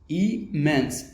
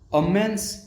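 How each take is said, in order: First: It is said in an Indian accent. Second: It is said in a US accent.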